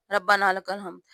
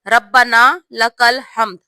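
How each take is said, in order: First: Softer quick mock of ربنا لک الحمد; hurried wrong way. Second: ربنا لک الحمد said slowly with a doubled b in ربنا; slow correct pronunciation. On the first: Teacher imitating the rushed wrong recitation, softer and quick. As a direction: rush ربنا لک الحمد as a careless habit. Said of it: "ہم جلدی جلدی میں ایسے پڑھتے ہیں". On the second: Teacher showing the correct pronunciation, slow and clear. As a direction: give ربنا لک الحمد full, measured syllables. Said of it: "صحیح تلفظ یہ ہے". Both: Shown as a demonstration.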